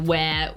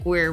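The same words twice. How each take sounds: First: It is said in a non-American accent. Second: It is said in an American accent. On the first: This is how the speaker naturally says it. "Because I go where" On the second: This is how Americans say it. "and you're like"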